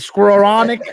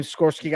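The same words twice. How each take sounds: First: "Skowronek" said in full, higher and louder; corrected surname. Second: Skowronek fumbled as "Skorsky"; botched surname. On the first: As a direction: land the name "Skowronek" triumphantly after fumbling it. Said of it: "Yeah, that's it". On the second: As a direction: stumble on the name, saying "Skorsky" for Skowronek. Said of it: "I can never say his last name". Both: Real, not acted.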